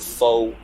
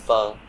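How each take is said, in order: First: The word is said the anglicized way. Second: The word is said the Vietnamese way. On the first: The speaker calls it wrong. "Pronouncing it wrong. It's not pho" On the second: The speaker calls it right. "it's pho"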